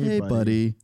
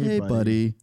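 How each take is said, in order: First: It sounds foreboding, setting up bad news. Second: The same.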